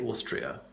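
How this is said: The first vowel is held fairly long. "I pronounce it fairly long"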